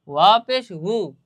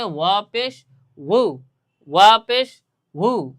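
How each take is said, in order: First: ওয়া পেশ হু with a breathy h sound instead of a rounded u; wrong pronunciation. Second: ওয়া পেশ হু said slowly, the হু as a clear rounded u; correct pronunciation, slow. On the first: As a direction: demonstrate the mistake ওয়া পেশ হু. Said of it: "সঠিক হলো না". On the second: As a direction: carefully model the right way, syllable by syllable. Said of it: "এখন উচ্চারণটা কেমন হবে?". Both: Shown as a demonstration.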